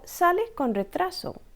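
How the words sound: It has the falling intonation of a statement. The speaker is telling someone the train is late. "we say the same sentence but with different intonation"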